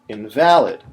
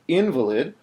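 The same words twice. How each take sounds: First: The stress is on the second syllable. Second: The stress is on the first syllable. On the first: Something that is no longer valid. "something that's no longer valid, like a coupon that's expired, if I say invalid" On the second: A person who is physically incapacitated. "a person who's physically incapacitated if I say invalid"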